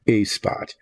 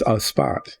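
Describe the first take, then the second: First: A said as a drawn-out "ay"; A as "ay", not "uh"; letter-name A. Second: A said as "uh" before spot; A as "uh", not "ay"; article as "uh". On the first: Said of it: "not a spot". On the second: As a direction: say A with a neutral uh vowel. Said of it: "Uh, that's a spot". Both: Shown as a demonstration.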